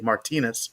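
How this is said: The name has the general American pronunciation. This is how most of the country says it. "as everywhere else in the U S, they would say"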